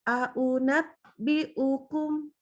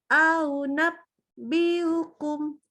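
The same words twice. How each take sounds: First: The glottal stop is clearly pronounced. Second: The glottal stop is softened and dragged. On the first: The speaker calls it right. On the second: The speaker calls it wrong. "berubah jadi ... Aduh, nggak boleh ya"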